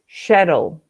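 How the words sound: It uses a European or Australian pronunciation. "if you go to Europe, maybe in, in Australia also"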